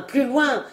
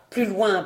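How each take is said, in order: First: Plus loin lifted higher, falling on loin; higher repeat. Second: Said in the usual way. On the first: A narrator's reading. Aunt repeating her order, higher and insistent. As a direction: push the repeat up in pitch. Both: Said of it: "qui lui criait".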